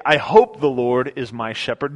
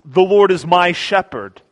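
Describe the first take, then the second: First: Unsure, questioning take on the line; doubtful hope. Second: Louder, certain declaration; great confidence. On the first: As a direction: say it like you're not sure. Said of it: "He doesn't say". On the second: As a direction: proclaim it with no doubt at all. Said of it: "he utters with great confidence". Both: Pretend.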